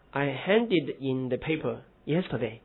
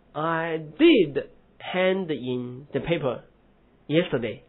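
First: Said in the usual way. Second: Slow I did hand in, did pressed; stress on did. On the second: Shown as a demonstration. Teacher showing emphatic did to students. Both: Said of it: "那你强调我昨天确实交了".

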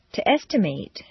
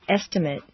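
First: "estimate" ending in a full "mate"; verb pronunciation. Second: "Estimate" ending in a reduced "mit"; noun pronunciation. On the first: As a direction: give the last syllable of "estimate" a long A. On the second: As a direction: weaken the last syllable of "Estimate". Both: Shown as a demonstration. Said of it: "regular transitions of adjectives and verbs".

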